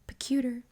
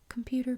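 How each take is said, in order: First: The word begins with a 'pe' sound. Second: The word begins with a 'com' sound. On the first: This is how a small child said it. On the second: This is the usual word.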